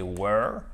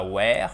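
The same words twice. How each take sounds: First: "were" with a central "er" vowel, rhyming with "her"; "were" said as "wur", not "wear"; correctly pronounced "were". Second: "were" said like "wear"; mispronounced "were". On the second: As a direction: open "air" vowel in "were". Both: Shown as a demonstration. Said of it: "Et pas were, mais were".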